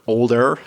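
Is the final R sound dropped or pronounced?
pronounced. The final r sound is clearly pronounced. "if I was American, I might say er, a bit more R sound there"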